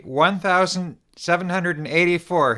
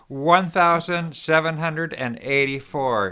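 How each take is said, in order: First: Loud, higher-pitched lead-in for a crowd; call to repeat. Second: Chanted, slow, higher-pitched rallying count; chanted, lead the crowd through the number, drawing it out; group repeat-after-me chant. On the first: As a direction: call out the number for everyone to repeat. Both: Shown as a demonstration. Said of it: "everybody repeat after me".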